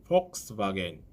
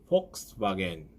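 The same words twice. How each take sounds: No difference in how they are said.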